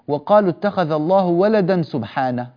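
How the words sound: ولدا runs straight into سبحانه. The praise seems to refer to the son. The speaker calls it wrong. "لا يليق أن نقول"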